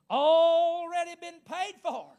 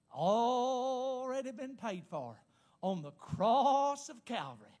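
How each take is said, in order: First: Slow, loud, high preacher's cry; triumphant proclamation. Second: Slow preacher's proclamation, stretching "Already"; drawn-out declaration. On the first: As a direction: belt it out, stretching "Already". Climactic repeat of the declaration. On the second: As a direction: declare it slowly, holding the vowels. First declaration of the sermon's point. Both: Real, not acted.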